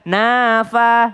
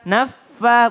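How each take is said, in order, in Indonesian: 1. Bunyi f tunggal dan singkat. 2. Bunyi f digandakan dan ditahan lama. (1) "bukan nafa no" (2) "tasdid dari nun ke fa naffa"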